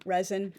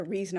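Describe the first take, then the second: First: "resin" with a short e, REZ-in; "resin" with the first vowel as in "red"; first pronunciation variant. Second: "resin" with a long ee, REE-zin; "resin" with the first vowel as in "see"; alternative pronunciation. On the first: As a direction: say "resin" as REZ-un, rhyming the start with "fez". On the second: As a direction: say "resin" as REE-zun, like the start of "reason". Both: Shown as a demonstration. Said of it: "the exact pronunciation of that".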